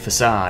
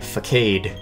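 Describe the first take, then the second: First: The c is sounded as an S. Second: The c is sounded as a K. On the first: The speaker calls it right. "it's actually facade" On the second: The speaker calls it wrong. "I had been calling it facade"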